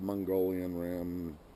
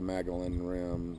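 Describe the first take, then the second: First: The first word sounds like the word Mongolian. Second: The first word sounds like the name Magellan. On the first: "not the Mongolian Rim" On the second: "not the Magellan Rim"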